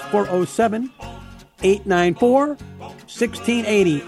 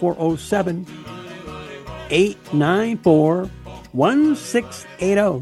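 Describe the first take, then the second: First: The number is said at normal speed. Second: The number is said slowly and deliberately.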